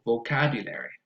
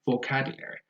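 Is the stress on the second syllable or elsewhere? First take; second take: second; second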